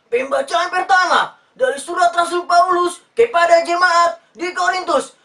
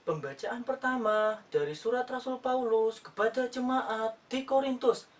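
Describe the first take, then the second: First: Booming, much higher and louder, slow scripture shout; loud Batak reading. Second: Soft, slow scripture reading, calm and cool; gentle Javanese church reading. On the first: Retold or imitated. Father reading scripture at church, loud booming Batak style. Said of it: "Dia bacanya kayak gini". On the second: Shown as a demonstration. Javanese reader at church, soft slow calm reading. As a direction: read it smooth and soothing like a Javanese lector. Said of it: "Kalau misalkan orang Jawa yang baca kitab suci, itu enak".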